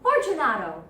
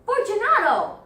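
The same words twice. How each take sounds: First: Loud, impatient call; calling aloud. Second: High, full shouted call; higher louder call. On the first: Montresor calling into the niche, loud. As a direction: call out sharply for an answer. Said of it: "I called aloud". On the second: Montresor calling again after silence, shouting high. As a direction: shout up high, demanding an answer. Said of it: "I called again". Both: Acted.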